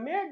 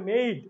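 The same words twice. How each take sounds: First: মেড with one short e vowel; wrong pronunciation. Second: মেইড with a clear e-to-i glide; correct pronunciation. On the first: Teacher rejects this reading, short-vowel মেড. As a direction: say মেড without the i-glide. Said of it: "এটা মেড না". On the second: Teacher gives students the correct form, gliding মেইড. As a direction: stretch the ei in মেইড. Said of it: "এটা হচ্ছে মেইড". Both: Shown as a demonstration.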